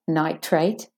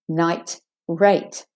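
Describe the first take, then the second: First: The sounds run together with no break. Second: There is a short stop between the parts. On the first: "No gap" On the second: "the T has a bit of a stop and a gap between the night and the rate"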